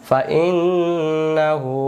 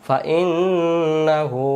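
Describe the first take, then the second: Both takes have the same delivery.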